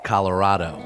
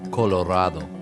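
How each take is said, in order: First: It is said with an English accent. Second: It is said with a Spanish accent. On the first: "In English, we say Colorado" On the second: "In Spanish, we say Colorado"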